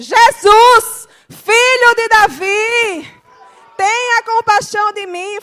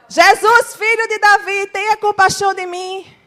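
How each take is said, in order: First: It is shouted even louder than before. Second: It is shouted at a loud volume. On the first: "Vou gritar mais alto" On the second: "Vou gritar agora"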